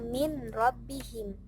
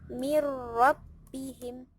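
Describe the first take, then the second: First: The n is clearly pronounced before the r. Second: The n merges fully into the following r. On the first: The speaker calls it wrong. "tidak dibaca min rabbihim" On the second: The speaker calls it right. "tapi dibaca mirrabbihim"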